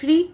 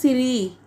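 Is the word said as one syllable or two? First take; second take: one; two. First: It is one quick syllable with no vowel gap. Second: An extra vowel splits it into two syllables. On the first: The speaker calls it right. "जिसमें कोई gap नहीं आ रहा। मैं कितनी जल्दी से श्री बोल रही हूँ" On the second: The speaker calls it wrong. "सिरी करके कुछ लोग इसका प्रोनाउंसिएशन करते हैं"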